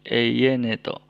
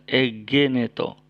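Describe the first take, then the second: First: The middle consonant is a y sound. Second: The middle consonant is a hard g sound. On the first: The speaker calls it right. "tapi eyeneto" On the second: The speaker calls it wrong. "bukan egeneto"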